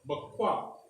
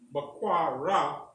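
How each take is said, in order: First: The syllables run together as one word. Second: The last syllable is said as a separate part. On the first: The speaker calls it right. "it's bakwa" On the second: The speaker calls it wrong. "you do not pronounce it as bakwa ra"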